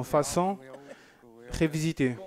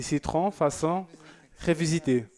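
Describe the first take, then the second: First: Said in the usual way. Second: French accent. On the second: Shown as a demonstration. Host showing off his French accent reading a viewer's dessert, in a French accent. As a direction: lean into a French accent on "citron, façon révisitée". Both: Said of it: "avec mon accent français".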